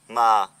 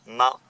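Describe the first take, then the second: First: The pitch falls on the word. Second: The pitch stays level on the word. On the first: It means witch. "Si on le prononce avec un accent qui tombe" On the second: It means ghost. "Si on le prononce avec un accent neutre"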